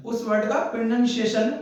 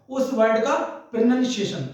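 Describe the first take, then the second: No difference in how they are said.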